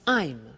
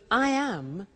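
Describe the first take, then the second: First: The words are contracted into one syllable. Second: Both words are said in full. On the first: "we contract the form so that I am becomes I'm" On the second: "we contract the form so that I am becomes I'm"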